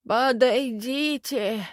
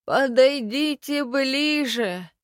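First: Slow, high, toothless skeleton croak; lipless mumble. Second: Slow, high, toothless call stressing ближе; lipless mumble. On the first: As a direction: mumble it through a mouth with no lips. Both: A narrator's reading. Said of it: "прошамкал безгубый рот".

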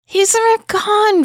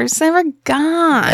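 First: He's NEVER gone, high rise on never; stress on never. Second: Said in the usual way. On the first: Acted.

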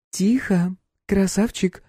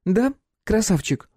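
First: High teasing purr; mocking tease. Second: High mocking drawl on Да; teasing. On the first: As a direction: tease the captive. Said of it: "она похлопала пленника по щеке". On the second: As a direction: taunt him slowly. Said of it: "задорным голосом". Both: A narrator's reading.

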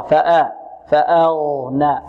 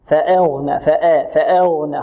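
First: فأغنى with a clear open "a" on the hamza, drawn out; فأغنى as "fa-aghna", no tilt; pure open hamza. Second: فأغنى with the hamza leaning to "eh"; wrongly thin the hamza in فأغنى toward "e", drawn out; فأغنى as "fa-eghna"; tilted hamza. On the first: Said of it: "خطأ". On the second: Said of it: "في-، فيميلها". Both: Shown as a demonstration.

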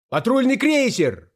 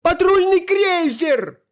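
First: High-pitched call from the crowd; raised voice calling out news; alarmed shout. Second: Very high, drawn-out wail; usurper's terrified high yell; panicked scream. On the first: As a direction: cry the warning high, without full force. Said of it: "крикнул кто-то в зале". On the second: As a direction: shriek it slowly at the top of the range. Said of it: "завопил узурпатор". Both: A narrator's reading.

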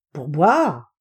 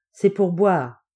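First: Loud, incredulous echo with a big swoop; astonished question. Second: Said in the usual way. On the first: Acted. Helper questioning his master's strange order, astonished. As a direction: balk at it in disbelief.

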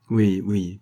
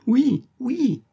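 First: Mute yes. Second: Very high squeaked yes through a gag; piercing chirped oui oui; gagged yes. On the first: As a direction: mumble yes through a gag. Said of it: "proféra la muette le prisonnier". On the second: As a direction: strain a yes past the gag. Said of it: "les lèvres lançaient un ri, ri éclatant". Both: A narrator's reading.

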